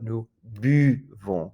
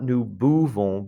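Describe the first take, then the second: First: The u is a tight ee with rounded lips. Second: The u is a loose, English-like oo sound. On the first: The speaker calls it right. "but nous buvons" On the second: The speaker calls it wrong. "not nous buvons"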